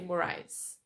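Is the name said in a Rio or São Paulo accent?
São Paulo. It is said with a São Paulo accent.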